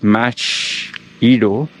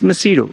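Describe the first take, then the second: First: The middle consonant is a 'ch' sound. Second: The middle consonant is a soft 's' sound. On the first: "even though it's M A C H"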